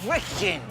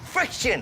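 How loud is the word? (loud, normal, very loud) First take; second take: normal; very loud. First: The word is said at normal loudness. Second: The word is said very loudly. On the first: "Say it with me" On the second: "A little too loud"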